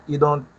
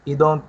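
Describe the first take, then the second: The two takes are said the same way.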